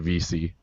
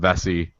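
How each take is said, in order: First: The name is said like 'V C'. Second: The name is said like 'Vesey'. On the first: This is how the name is really said. The speaker calls it right. "but it's really V C" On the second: This is how most people say the name. The speaker calls it wrong. "everybody called him Vesey"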